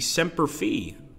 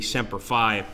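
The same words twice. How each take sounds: First: It is said with a Latin pronunciation. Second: It is said with an Americanized pronunciation. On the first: The speaker calls it right. "the Latin pronunciation would be Semper Fi" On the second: The speaker calls it wrong. "they always say Semper Fi"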